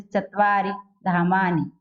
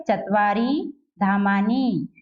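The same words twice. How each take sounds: First: चत्वारि धामानि with light, short "i" endings; short final i. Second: Slow चत्वारि धामानि with stretched "eee" endings; long final ee. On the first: Teacher showing pupils the small matra, short light final i. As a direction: put little weight on the last vowel of चत्वारि and धामानि. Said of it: "थोड़ा सा कम load लेकर". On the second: Teacher showing how a big matra would read, long final ee. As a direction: drag out the last vowel of चत्वारि and धामानि. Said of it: "बड़ी ई की होती तो". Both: Shown as a demonstration.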